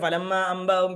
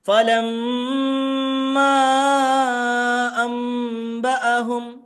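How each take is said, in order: First: The doubled and long sounds are cut short. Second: The doubled and long sounds are held fully. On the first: The speaker calls it wrong. "ഇങ്ങനെ ഓതുന്നവരുണ്ട്" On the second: The speaker calls it right. "ഷദ്ദുണ്ട് മദ്ദുണ്ട്, ഇങ്ങനെ തന്നെ ഓതണം"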